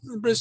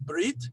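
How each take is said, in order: First: The word ends with an s sound. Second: The word ends with a t sound.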